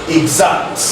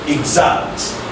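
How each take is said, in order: The two takes are said the same way.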